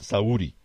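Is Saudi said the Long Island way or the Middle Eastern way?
Middle Eastern. It is said with a Middle Eastern pronunciation. "the guys from the Middle East go Saudi"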